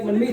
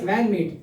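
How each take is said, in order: First: The name has its original Indian pronunciation. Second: The name has an Americanized pronunciation, like 'man meat'.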